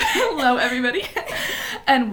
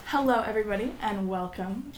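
First: Greeting through laughter; giggling while welcoming listeners; laughing. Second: Bright announcer greeting; newscaster voice. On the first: Real, not acted. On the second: Shown as a demonstration. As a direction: open like a TV news anchor. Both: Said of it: "that's my newscaster voice".

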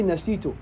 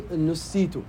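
First: "nasitu" with an A in the first syllable; active form nasitu. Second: "nusitu" with a U in the first syllable; passive form nusitu. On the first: Teacher showing the wording to avoid, "nasitu" said with "na". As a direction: say "nasitu", opening on "na". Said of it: "don't say". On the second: Teacher giving the wording to use, "nusitu" said with "nu". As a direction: say "nusitu", opening on "nu". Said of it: "that I was made to forget". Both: Shown as a demonstration.

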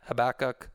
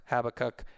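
First: Habakkuk with the stress on the middle syllable, huh-BACK-uk; alternative pronunciation. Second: Habakkuk with the stress on the first syllable, HAB-uh-kuk; alternative pronunciation. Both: Shown as a demonstration. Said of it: "or however you pronounce it".

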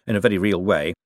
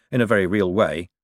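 Both takes have the same delivery.

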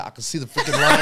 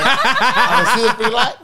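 First: Said in the usual way. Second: Louder, laughing replay of the sister's "I can see the freaking line"; mock indignant retort. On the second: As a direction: throw the line back louder, half laughing at it.

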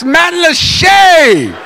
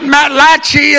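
First: Matlacha, ending in a long "shay"; correct place-name pronunciation. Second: Matlachi, ending in "chee"; wrong place-name pronunciation. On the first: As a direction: shout Matlacha with a drawn-out "SHAY". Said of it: "It's not Matlachi". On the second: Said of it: "it's Matlacha". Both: Shown as a demonstration.

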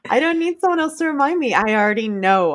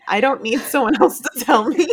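First: Higher, insistent repeat; firm, leaning into the words; emphatic. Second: A laugh breaks into the middle of the line; amused, half laughing. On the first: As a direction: press it home on someone. Restated more firmly. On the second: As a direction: chuckle through it. First take, laugh mid-line. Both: Real, not acted.

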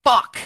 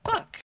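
First: A frustrated curse, not quite a shout, higher and a bit louder; half-shouted curse. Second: Put-on much higher, soft little-kid echo of the curse; small child's voice. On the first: Retold or imitated. Frustrated store clerk half-shouts a curse at a torn shirt. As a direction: blurt it out as the shirt tears, short of a full yell. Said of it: "not exactly a shout, but definitely not a whisper". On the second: Four-year-old softly repeats the clerk's curse in a tiny child voice. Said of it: "a small voice behind me say".

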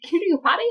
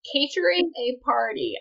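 First: "catering a party" blurted high, syllables garbled; tongue-tied slip. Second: "Catering a party" redone with every syllable distinct; careful correction. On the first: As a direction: trip over "catering a party", loud and high. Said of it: "I can talk today". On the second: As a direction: say "Catering a party" cleanly, with emphasis. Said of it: "I can talk today, y'all, I promise". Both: Real, not acted.

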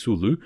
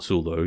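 First: Sulu said soo-loo, ending in a clean oo; the correct Sulu with an oo ending and a slight rise; corrected pronunciation. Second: Sulu said as soo-loh, ending on a long oh; the misspoken Sulu with an oh at the end; wrong pronunciation. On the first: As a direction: Sulu ending in oo, set right. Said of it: "He is not Sulu". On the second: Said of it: "He's Sulu". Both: Shown as a demonstration.

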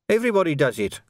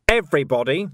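First: Higher-pitched defensive outburst; acted corporal's protest, pitched up; bursting out. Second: EVERYBODY lifted into a pointed question; "everybody" echoed higher, rising at the end; challenging echo. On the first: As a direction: blurt it out in self-defence. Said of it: "Quirk burst out". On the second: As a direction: throw "everybody" back with a rising, louder challenge. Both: A narrator's reading.

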